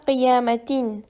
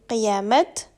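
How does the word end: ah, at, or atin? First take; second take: atin; at. First: The word ends with a full atin. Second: The word ends with a clipped at. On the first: "on ne prononce pas qiyamatin" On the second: "On ne dit pas non plus qiyamat"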